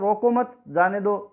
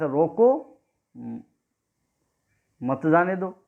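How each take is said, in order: First: There is a pause right after मत. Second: There is a pause right after रोको.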